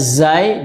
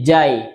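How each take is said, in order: First: The word begins with a z sound. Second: The word begins with a j sound. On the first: The speaker calls it right. "Harusnya zai" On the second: The speaker calls it wrong. "melafalkan huruf zai seperti jim"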